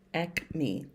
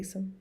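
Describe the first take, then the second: First: The word is said like 'ack-mee', ending in 'ee'. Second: The word is said like 'ay-sim', ending in 'im'. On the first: The speaker calls it right. "that's why I looked it up" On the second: The speaker calls it wrong. "What did I say?"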